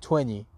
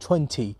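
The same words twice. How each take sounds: First: It is said in an American accent. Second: It is said in a British accent. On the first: "لهجه امریکن راحت تر میگه 20" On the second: "بریتیش ها میگن 20"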